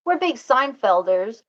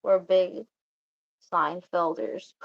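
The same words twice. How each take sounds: First: "We're" punched louder after a gasp, "Seinfelders" said proudly; proud emphatic claim. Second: Said in the usual way. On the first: Shown as a demonstration.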